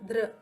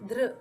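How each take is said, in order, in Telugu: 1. ఈ అక్షరం చివర సిలబిక్ 'r' అచ్చు ఉంటుంది. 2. ఈ అక్షరం చివర సిలబిక్ 'r' అచ్చు ఉంటుంది.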